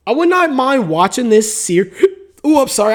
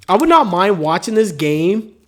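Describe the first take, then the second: First: Hiccuping mid-sentence; interrupted by a hiccup. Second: Said in the usual way. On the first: Real, not acted. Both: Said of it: "I got the hiccups right now".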